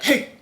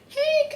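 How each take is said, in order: First: It is said in a deeper, flatter voice. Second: It is said in a high-pitched voice. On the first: The dog is in trouble or should stop. "more of like a monotone, like a deeper voice" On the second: The dog is being called in a friendly way. "if you have more of like a high-pitched voice"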